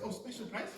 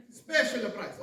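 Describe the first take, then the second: First: Higher, softer questioning echo of the hawker; curious shopper, not shouting; customer's query. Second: Raised, loud sales call; souk vendor's cry. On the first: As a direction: check the offer with interest. Customer answers the souk vendor. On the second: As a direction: hawk the bargain to passers-by. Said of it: "what's the first thing you hear". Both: Acted.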